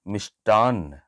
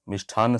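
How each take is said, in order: First: The middle consonant is an unaspirated t sound. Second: The middle consonant is an aspirated th sound. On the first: The speaker calls it right. "मिष्टान्न बोलिए, ये सही है" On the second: The speaker calls it wrong. "मिष्ठान्न सही नहीं है"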